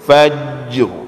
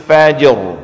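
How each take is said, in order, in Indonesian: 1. Bunyi j di akhir ditahan dan dipanjangkan. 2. Bunyi j di akhir dilepas dengan cepat. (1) "nggak perlu"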